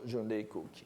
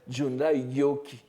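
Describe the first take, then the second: First: The last word begins with a K sound. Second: The last word begins with a G sound. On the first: This is the mixed reading people normally use. The speaker calls it wrong. "on lit toujours Junrei Koki" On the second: This is the consistent reading. The speaker calls it right. "il faudrait lire après Junrai Gyoki"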